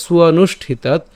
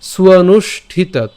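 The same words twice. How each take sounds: First: স্বনুষ্ঠিতাৎ joined up, "suwanushthitaat"; connected, falling স্বনুষ্ঠিতাৎ; said as one word. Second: Higher, slow স্বনুষ্ঠিতাৎ split as "suwanush... thitaat"; drawn-out স্বনুষ্ঠিতাৎ in pieces; broken into parts. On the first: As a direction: run স্বনুষ্ঠিতাৎ together without a break. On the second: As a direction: pause inside স্বনুষ্ঠিতাৎ before the "thitaat". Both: Shown as a demonstration. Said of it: "এটা একসাথে করবো".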